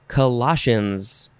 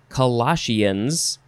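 First: The ending sounds like "shuns." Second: The ending sounds like "sheans."

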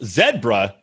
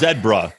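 First: The first vowel sounds like the one in 'see'. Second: The first vowel sounds like the one in 'bed'. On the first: This is how an American visitor says it. "And you're like" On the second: This is how people in Britain say it. "If you go to the zoo there, they're like"

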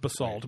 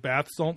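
First: The word is said as plain basalt. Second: The word is said like bath salt. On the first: The speaker calls it right. "It's basalt" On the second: The speaker calls it wrong. "but he says bath salt stones"

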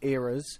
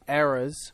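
First: It is said with a British pronunciation. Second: It is said with an American pronunciation.

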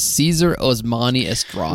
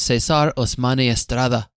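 First: The name is said with an English accent. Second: The name is said with a Spanish accent. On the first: "Thank you" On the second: "Don't show off your accent"

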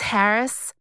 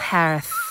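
First: The final sound is a clear s. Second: The final sound is lisped like th.

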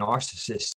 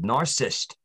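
First: The word is said with all its syllables. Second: The word is said with fewer syllables. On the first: "instead of saying narcissist" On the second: "too many syllables"

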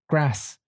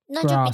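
First: It is said in a northern English accent. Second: It is said in a southern English accent. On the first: "if you go up north, for example, they'll say grass" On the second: "instead of grass"

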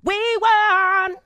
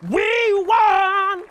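First: It is said in a plain, smooth voice. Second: It is said in a rough, gritty voice.

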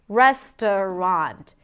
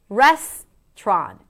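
First: The word is said with three syllables. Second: The word is said with two syllables. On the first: "Res, the primary stress, t, a schwa, a weak stress, and then rond" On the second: "The middle syllable can be eliminated"

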